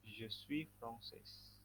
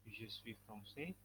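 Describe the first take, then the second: First: "je suis française" drawn out very slowly, the final s sounded; slow model reading. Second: "Je suis français" said slowly, each word clear; slow model reading. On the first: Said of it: "teacher models the feminine form". ("je suis française" diucapkan sangat pelan, huruf s akhir dibaca) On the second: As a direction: read "Je suis français" slowly so the class can copy it. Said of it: "teacher models the masculine form". ("Je suis français" diucapkan pelan dan jelas) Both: Shown as a demonstration.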